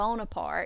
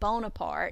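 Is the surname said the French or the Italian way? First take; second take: French; French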